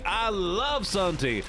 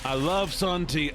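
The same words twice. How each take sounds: First: I love sun tea said higher and slow, love stretched; drawn-out dreamy version. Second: Said in the usual way. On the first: Shown as a demonstration. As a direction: savour every word of I love sun tea.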